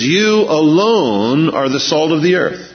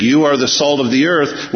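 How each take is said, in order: First: "You alone" pressed hard and slowed; emphatic slow "You alone" with a falling end; stress on YOU ALONE. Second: Said in the usual way. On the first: Shown as a demonstration. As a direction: lean on "You alone", slowly, then fall. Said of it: "What he says is". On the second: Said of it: "it's emphatic in the Greek".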